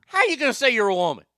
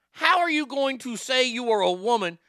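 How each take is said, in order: First: Fast, high, loud challenge; indignant, run-together question; incredulous. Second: High, measured word-by-word challenge; indignant, carefully separated words; incredulous, spelled out. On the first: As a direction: fire the question out in one rush. Incredulous rant, casual first take. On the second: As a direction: spell out each word in disbelief. Repeats question word by word. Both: Real, not acted.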